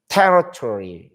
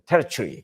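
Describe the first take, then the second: First: The word is said with an American accent. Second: The word is said with a British accent. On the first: "근데 미국 사람들은" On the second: "영국 사람들은"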